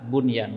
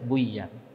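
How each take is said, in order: First: The n is pronounced clearly before the y. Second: The n merges into the following y sound. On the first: The speaker calls it right. "harus dibaca dengan bunyan" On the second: The speaker calls it wrong. "nggak boleh dibaca buyan"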